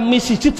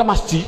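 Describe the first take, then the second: First: "misijid" with an i after both m and s; alternative vowelling. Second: Said in the usual way. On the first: Shown as a demonstration. Teacher asks why not read the word another way, alternative vowelling. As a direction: say "misijid" in three syllables, mi-si-jid. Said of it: "Mengapa kok dibaca masji". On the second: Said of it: "Mbok dibaca misijid saja".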